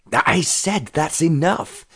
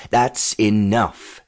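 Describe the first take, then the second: First: High, slow exasperated yell. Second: Slow, drawn-out mock roar; restrained roar. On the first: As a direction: yell it higher, stretching the words. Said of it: "he yelled". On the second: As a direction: order a stop, roaring without much volume. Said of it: "the man roared". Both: A narrator's reading.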